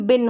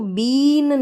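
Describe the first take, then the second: First: The vowel is short. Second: The vowel is long. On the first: The speaker calls it right. "इसका सही उच्चारण बिन होता है" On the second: The speaker calls it wrong. "इसको बीन नहीं होता है"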